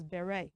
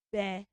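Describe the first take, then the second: First: "beret" as beh-RAY; AY ending. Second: "beret" split as BEH, RET; two separate beats for "beret", T sounded; wrong ET ending. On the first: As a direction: end "beret" on AY with silent T. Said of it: "We should pronounce that word as". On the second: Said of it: "that word is not". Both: Shown as a demonstration.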